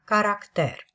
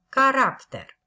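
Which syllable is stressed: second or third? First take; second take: third; second. First: The stress is on the third syllable. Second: The stress is on the second syllable. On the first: The speaker calls it right. "accentuarea corectă este cu accentul pe silaba a treia" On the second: The speaker calls it wrong. "rostirea greșită a acestui cuvânt prin accentul pe silaba a doua"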